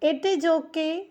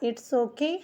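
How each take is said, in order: First: 'It is' is said as two full words. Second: 'It is' is contracted into one syllable. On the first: "हम दो तरीके से इसे बोल सकते हैं" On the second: "हम दो तरीके से इसे बोल सकते हैं"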